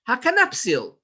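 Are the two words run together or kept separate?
run together. The two words run together into one. The speaker calls it wrong. "There's no such a word"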